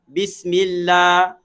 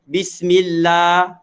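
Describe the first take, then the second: No difference in how they are said.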